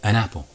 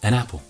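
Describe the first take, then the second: No difference in how they are said.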